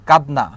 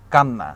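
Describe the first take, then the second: First: কাদনা said with a clear d before n; কাদনা, original form, loud and clear. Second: কান্না said with a long doubled n; কান্না held on the double n. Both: Shown as a demonstration. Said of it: "নটাকে দুইবার উচ্চারণ".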